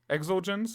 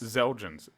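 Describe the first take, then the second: First: The word begins with an "eks" sound. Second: The word begins with a "z" sound. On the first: "I don't know if you're supposed to pronounce the X in this or not. If so, it's Exulgens" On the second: "They're pronouncing it like a Z"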